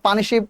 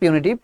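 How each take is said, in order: First: The middle consonant is a 'sh' sound. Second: The middle consonant is a 't' sound. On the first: The speaker calls it wrong. "এটাকে অনেকে পানিশিভ না" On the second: The speaker calls it right. "এটা উচ্চারণ হবে পিউনিটিভ"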